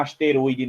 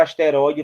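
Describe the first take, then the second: First: ASTEROIDE with a closed "ô", like "asterôide"; o fechado. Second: ASTEROIDE with an open "ó"; o aberto. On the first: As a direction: say "asteroide" wrongly, closing the o. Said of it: "vai se chamar asteroide". (asteroide com ô fechado) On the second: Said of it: "não é que agora asteroide". (asteroide com ó aberto) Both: Shown as a demonstration.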